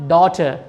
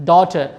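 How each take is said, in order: The two takes are said the same way.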